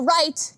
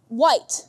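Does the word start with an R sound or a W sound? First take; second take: R sound; W sound. First: The word starts with an R sound. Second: The word starts with a W sound. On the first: The speaker calls it right. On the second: The speaker calls it wrong.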